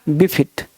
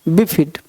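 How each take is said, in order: The two takes are said the same way.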